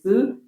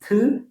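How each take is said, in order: First: The consonant is short with little breath. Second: The consonant has a strong puff of air. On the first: "plain is th" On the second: "aspirated is th"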